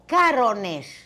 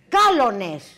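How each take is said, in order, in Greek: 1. Το μεσαίο σύμφωνο είναι ήχος ρ. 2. Το μεσαίο σύμφωνο είναι ήχος λ.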